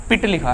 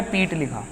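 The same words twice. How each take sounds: First: पिट with a short i; short vowel. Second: पीट with a long ee; long vowel. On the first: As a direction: keep the vowel in पिट brief. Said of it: "यहाँ पर आप देख रहे हैं तो ह्रस्व". (पिट में ह्रस्व इ) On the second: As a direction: hold the vowel in पीट longer. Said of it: "यहाँ पर आप देख रहे हैं तो दीर्घ". (पीट में दीर्घ ई) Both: Shown as a demonstration.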